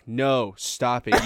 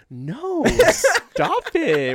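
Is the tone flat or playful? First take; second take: flat; playful. First: It is said in a flat, serious tone. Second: It is said in a teasing, playful tone. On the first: The refusal reads as a real objection. "the way that reads out in a transcript in court" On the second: The refusal is a joke, not serious. "it's like playful, it's fun"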